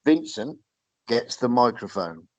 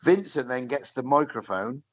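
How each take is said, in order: First: Slow, measured repeat with a pause after the name; said slowly. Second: Said in the usual way. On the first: Shown as a demonstration. Host building up to the wrestler's promo, said slowly and deliberately. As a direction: spell it out slowly, piece by piece. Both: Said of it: "I'm gonna say it slowly".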